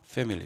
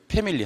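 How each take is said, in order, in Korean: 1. f 소리로 시작해요. 윗니를 아랫입술에 대요. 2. p 소리로 시작해요. 입술을 붙여요. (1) "이렇게" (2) "패밀리 하면 안 되는 거거든요"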